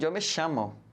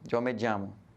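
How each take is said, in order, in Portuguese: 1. O ll é falado com um som de sh. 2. O ll é falado com um som parecido com j. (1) "a variante da Argentina, que é diferente, né? Que é o sh" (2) "O J, como assim querem dizer, pronunciados, ele está voltado para a região da América do Sul"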